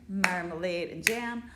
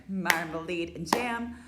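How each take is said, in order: No difference in how they are said.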